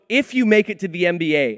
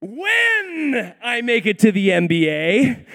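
First: Said in the usual way. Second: When stretched out long, high and loud; stress on When. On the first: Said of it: "this guy was saying". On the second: Retold or imitated. Son correcting a man about the NBA, When heavily stressed. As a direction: draw out When as an emphatic correction. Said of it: "my son Jacob's like".

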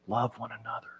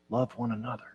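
First: Soft, faint, much quieter; old man's whisper. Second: Soft, faint, much quieter; repeated whisper. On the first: Preacher voicing old John's faint whisper. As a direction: barely breathe it like a dying elder. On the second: Preacher voicing old John's repeated whisper. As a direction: breathe it once more, gently. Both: Retold or imitated. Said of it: "all he could do was whisper".

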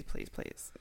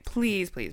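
First: Whispered pleading; whispering. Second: Said in the usual way. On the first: Shown as a demonstration. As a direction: breathe the pleas without voice. Pleading, then repeated whispered.

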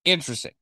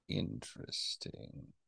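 First: Said in the usual way. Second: Slow, breathy whisper, much softer and lower; whispered interesting. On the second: Shown as a demonstration. Cohost mulls over a surprising claim in a slow whisper. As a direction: let the word fade to a slow whisper. Repeats word, fading to whisper.

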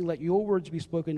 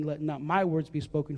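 First: "your" leaned on, set against "my"; stress on your. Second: "my" leaned on, set against "your"; stress on my. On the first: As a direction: press "your" in "Let your words be spoken". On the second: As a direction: press "my" in "let not my words be spoken". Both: Shown as a demonstration.

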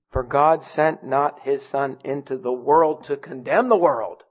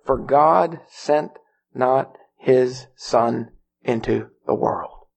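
First: Measured reading that carries on past "world" to "condemn"; no stop after WORLD. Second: Slow, low reading that ends with finality on "world"; full stop after WORLD. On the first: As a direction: keep "world" open, rise on "condemn", then fall. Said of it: "the verse doesn't stop after the first nine words". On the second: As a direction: read word by word and drop "world" to a full stop. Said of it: "I'm glad there's not a period". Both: Shown as a demonstration.

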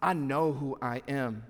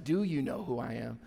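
First: "I know who I am." said slowly as a firm falling statement; confident statement. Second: "Do you know who I am?" asked softly as an unsure question; doubtful question. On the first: Preacher showing how a child of God says it, slow firm statement. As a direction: plant it slowly, certain of yourself. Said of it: "You change it with an exclamation, a statement". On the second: Preacher showing the wrong, doubting way to say it, soft unsure question. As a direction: ask it quietly, unsure of yourself. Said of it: "You change it with an exclamation".

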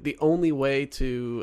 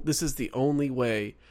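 First: "only" stressed and drawn out slowly. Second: Said in the usual way. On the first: Shown as a demonstration. Podcast cohost testing the quote, stressing "only". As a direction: lean hard on the word "only". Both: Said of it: "put the emphasis on the word only".

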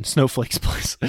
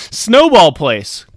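First: Whispered "Snowflakes place" through a laugh; soft, breathy laugh on the misspoken "Snowflakes place"; laughing at a slip. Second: "Snowball" said slowly and louder, correcting "Snowflakes"; slow, loud correction landing hard on "Snowball"; corrected word stressed. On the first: Real, not acted. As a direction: giggle at the wrong word "Snowflakes". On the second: Shown as a demonstration. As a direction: punch the right word "Snowball", slow and firm.

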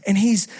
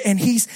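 No difference in how they are said.

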